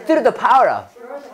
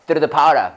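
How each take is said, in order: First: "Through the power of" drawn out, higher; slow, careful "Through the power of"; slow model phrase. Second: "Through the power of" in one quick go; brisk, linked "Through the power of"; quick, run together. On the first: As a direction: stretch "Through the power of" slowly. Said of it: "여기 한 번에 빨리 읽어봐". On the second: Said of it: "자, 여기 한 번에 빨리 읽어봐". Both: Shown as a demonstration.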